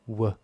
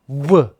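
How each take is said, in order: First: The consonant is said with normal, lighter force. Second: The consonant is punched out with strong force. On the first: "there's a lower peak" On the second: "there's a higher peak where I punch it"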